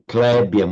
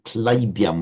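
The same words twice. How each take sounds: First: The first vowel has a Hindi-style quality. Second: The first vowel has a Sanskrit-style quality. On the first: The speaker calls it wrong. "which would be the Hindi way" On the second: The speaker calls it right. "which is the, the Sanskrit way"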